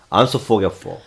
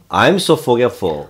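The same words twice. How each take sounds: First: 'I am' is squeezed into a short 'am'. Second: 'I am' is merged into a contracted 'I'm'. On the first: "더 확 뭉치면" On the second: "덩어리가 뭉치면"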